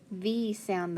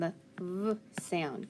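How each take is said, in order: First: Said in the usual way. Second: "V" as a buzzed "vvv"; letter sound. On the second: Shown as a demonstration. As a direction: say "V" as its bare sound, not "vee".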